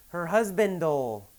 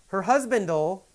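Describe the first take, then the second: The two takes are said the same way.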